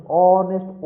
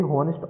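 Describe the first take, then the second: First: ऑनेस्ट said louder, opening straight on the vowel with no h; silent h. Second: हॉनेस्ट with a spoken h at the start; wrong pronunciation. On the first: Teacher giving students the correct ऑनेस्ट with the h silent. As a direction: stress ऑनेस्ट, starting on the o sound. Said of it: "ऑनेस्ट होता है". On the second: Teacher showing students the mistaken h in हॉनेस्ट. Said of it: "हॉनेस्ट नहीं होता कभी". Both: Shown as a demonstration.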